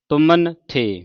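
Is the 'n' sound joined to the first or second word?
first. The n sound ends the first word. The speaker calls it right. "ਨੰਨਾ ਹੈ ਇਹ ਮੰਮੇ ਦੇ ਨਾਲ ਲਾਉਣਾ"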